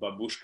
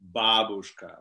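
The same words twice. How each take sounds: First: The stress falls on the second syllable. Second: The stress falls on the first syllable. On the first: The speaker calls it wrong. "babushka is actually wrong way of putting intonation. It's not babushka" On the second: The speaker calls it right. "it's babushka"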